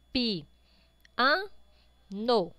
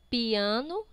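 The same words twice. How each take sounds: First: Pi, an, no with a clear pause after each piece; syllable by syllable. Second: Said in the usual way. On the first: Shown as a demonstration. Teacher counts mouth openings for pupils, syllable by syllable. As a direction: open up separately for pi, an, no. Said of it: "Quantas vezes você abre a boca". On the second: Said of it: "separar estas palavras em sílabas".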